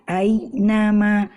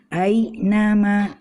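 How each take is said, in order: No difference in how they are said.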